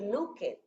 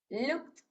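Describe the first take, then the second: First: The ending is said as a separate 'ed' syllable. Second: The ending is said as a short 't' sound. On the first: The speaker calls it wrong. "no va a decir looked" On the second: The speaker calls it right. "la ed la vamos a pronunciar como una T"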